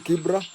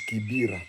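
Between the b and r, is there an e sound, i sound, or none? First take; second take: none; i sound. First: No vowel is heard between b and r. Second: An i vowel is heard between b and r. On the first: This is the original name. The speaker calls it right. "the original it was called it's called Kibra" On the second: This is how locals commonly say the name. The speaker calls it wrong. "we Kenyans call it Kibira"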